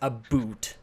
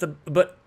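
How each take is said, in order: First: The second vowel is a full, drawn-out 'oo'. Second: The second vowel is cut short partway through. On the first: This is the exaggerated impression. The speaker calls it wrong. "I don't think anybody says a boot" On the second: This is how people actually say it. The speaker calls it right. "we take a shortcut on it"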